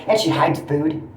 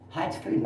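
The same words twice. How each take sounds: First: Said in the usual way. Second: "Hides food" repeated much softer, under his breath; quiet echo. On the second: Real, not acted. Softly repeating his complaint about the roommate hiding food. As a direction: drop the repeat of "Hides food" to a soft aside.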